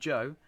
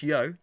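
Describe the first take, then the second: First: The word begins with a 'j' sound. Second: The word begins with a 'y' sound. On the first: The speaker calls it wrong. "I know it's not Joe" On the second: The speaker calls it right. "I know it's Yo"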